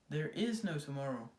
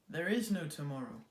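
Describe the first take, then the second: The two takes are said the same way.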